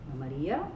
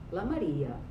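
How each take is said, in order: First: The pitch starts low and rises at the end. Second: The pitch starts high and falls to low. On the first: "low star high" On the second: "high plus low star"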